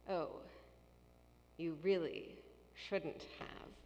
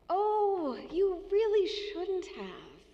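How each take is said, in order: First: It sounds stern and disapproving. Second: It sounds warm and grateful.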